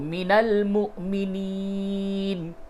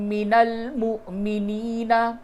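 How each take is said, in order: First: The last word ends without its final vowel. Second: The last word ends with a final vowel. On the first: The reading stops at this word. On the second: The reading goes on without stopping.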